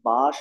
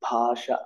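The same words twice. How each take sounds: First: The first consonant is said without aspiration. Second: The first consonant is said with aspiration. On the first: The speaker calls it wrong. "భాష అనను నేను" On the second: The speaker calls it right. "ఒత్తు నేను పలుకుతాను పక్కగా"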